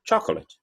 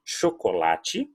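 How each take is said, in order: First: "chocolate" as CHOK-lut; English "chocolate", hit the first syllable; English first-syllable stress. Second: Slow "chocolate", sho-ko-LA-tchi; measured Portuguese "chocolate", all four syllables clear. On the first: Teacher showing where English stresses, CHOK-lut "chocolate". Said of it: "Olha onde você estressou". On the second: Teacher setting up the comparison, slow Portuguese "chocolate". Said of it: "de português de chocolate". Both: Shown as a demonstration.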